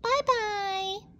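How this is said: It is said in a high, squeaky voice.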